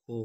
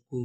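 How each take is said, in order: First: کو with the o vowel, as in "go"; ko sound. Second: کو with the oo vowel, as in "food"; ku sound. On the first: Teacher sounding out a Korean syllable, کو as "ko". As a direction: say کو as "ko", with a long o. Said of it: "یہ آواز نکالے گا". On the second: Teacher sounding out a Korean syllable, کو as "ku". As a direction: say کو as "ku", with a long oo. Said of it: "آواز نکالے گا". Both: Shown as a demonstration.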